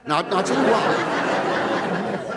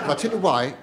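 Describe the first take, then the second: First: Slow, teasing I'll tell you why; drawn out. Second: Said in the usual way. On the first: Acted. Comic build to a punchline.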